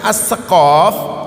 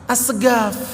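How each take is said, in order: First: The middle consonant is a deep q sound. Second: The middle consonant is a hard g sound. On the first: The speaker calls it right. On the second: The speaker calls it wrong.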